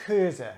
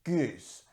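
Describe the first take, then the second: First: Geuze with a throaty Dutch G and a final uh; Dutch pronunciation. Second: Goose with a hard G and no final uh; French-style goose, vowel between oo and uh; French pronunciation. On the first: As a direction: say Geuze in two syllables, opening on a guttural back-of-mouth rasp. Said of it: "I'll just pronounce it". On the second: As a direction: say goose as one French syllable, silent E. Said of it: "using the French pronunciation". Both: Shown as a demonstration.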